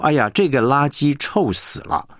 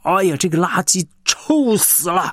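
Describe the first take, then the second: First: It is said flatly, with little expressive feeling. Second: It is said vividly, with strong expressive feeling. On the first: The listener cannot sense the smell. The speaker calls it wrong. "那么就是很平淡的一句话呢" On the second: The listener feels as if standing by the garbage. The speaker calls it right. "你那个臭就真的让人觉得好像你就在垃圾堆前面"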